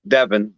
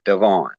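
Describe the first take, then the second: First: The last syllable is said like 'in'. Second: The last syllable is said like 'on'. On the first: The speaker calls it wrong. "I couldn't have been like" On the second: The speaker calls it right. "it had to go with O"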